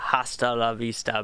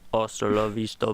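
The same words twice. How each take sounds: First: It is said in the speaker's normal voice. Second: It is said in a deep, put-on movie-star voice.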